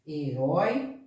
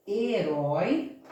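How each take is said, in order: First: Herói said shorter, lower, set up to be split; teacher saying Herói before separating its syllables. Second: Herói stretched slowly, held as one word; teacher slowly showing the word herói; slow drawn-out word. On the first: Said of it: "Vamos separar isso?". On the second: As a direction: draw out herói slowly for the class. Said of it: "se eu tenho aqui a palavra". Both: Shown as a demonstration.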